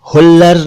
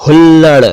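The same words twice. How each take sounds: First: हुल्लर ending in plain r; wrong r for ड़. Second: हुल्लड़ ending in a retroflex flap ड़; correct flap ड़. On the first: Teacher rejects this version, हुल्लर with plain r. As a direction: end हुल्लर on र, without any flap. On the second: Teacher models a word for learners, हुल्लड़ with flap ड़. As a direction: curl the tongue on the end of हुल्लड़. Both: Shown as a demonstration. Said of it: "नहीं".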